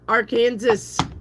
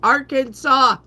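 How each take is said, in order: First: The word does not end with a 'saw' sound. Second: The word ends with a plain 'saw' sound. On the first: The speaker calls it wrong. "It is not Arkansas" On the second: The speaker calls it right. "It's Arkansas. ... Sa"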